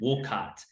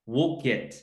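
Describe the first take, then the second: First: The second syllable is not said like kit. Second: The second syllable is said like kit. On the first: Someone unfamiliar with the town said it. The speaker calls it wrong. "He always says Woolcott" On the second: A local said it. The speaker calls it right. "wool like wool, and then kit like a kit"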